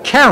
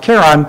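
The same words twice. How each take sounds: First: The name begins with a soft SH sound. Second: The name begins with a hard K sound. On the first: It honors a wife named Charlene. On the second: It follows the original Greek spelling.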